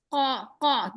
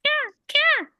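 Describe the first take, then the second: First: A heavy mother raven's caw; mama raven caw. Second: Much higher light caw; a tiny baby raven's light caw. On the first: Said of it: "Mama raven says". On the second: Baby raven calling, high and light. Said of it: "Baby raven says, softer sound". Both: Retold or imitated.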